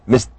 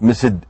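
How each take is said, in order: First: The ending is a plain t sound. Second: The ending is not a plain t sound. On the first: The speaker calls it right. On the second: The speaker calls it wrong. "Not missed"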